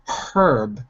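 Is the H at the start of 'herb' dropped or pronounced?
pronounced. The word begins with an H sound. "in British English, they say herb with the H"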